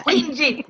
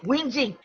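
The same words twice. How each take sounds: First: "Whinging" said through a laugh, a little higher; laughing word. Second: Said in the usual way. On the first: Shown as a demonstration. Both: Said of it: "Y'all know that's my word".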